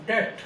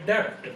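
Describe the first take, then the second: First: डेट said with no p sound; "डेट" plain, the b silent; correct debt. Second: डेप्ट said with a sounded p, like students; "डेप्ट" with the silent letter spoken as p; wrong debt with b. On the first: Teacher gives the right sound, डेट without p. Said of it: "तो इसकी sound क्या है". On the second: Teacher shows the students' mistake, saying डेप्ट with p. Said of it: "student इसको बोलता है डेप्ट". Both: Shown as a demonstration.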